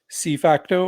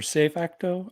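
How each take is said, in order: First: The first word sounds like the English letter C. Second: The first word sounds like the English word say. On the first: An English speaker's reading of the name. "C facto if you're a gringo like me" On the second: A Spanish speaker's reading of the name. "if you speak Spanish and you say it like say"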